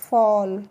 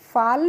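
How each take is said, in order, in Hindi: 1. स्वर गोल 'aw' है। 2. स्वर खुला 'aa' है। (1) "इसको हम पढ़ेंगे फॉल" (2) "फाल नहीं पढ़ेंगे"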